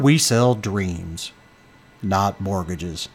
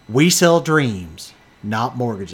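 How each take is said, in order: First: The speaker uses a deep, put-on radio voice. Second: The speaker uses an ordinary speaking voice.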